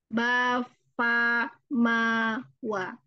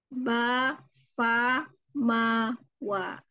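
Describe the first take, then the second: Both takes have the same delivery.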